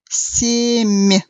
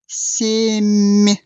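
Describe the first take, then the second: The two takes are said the same way.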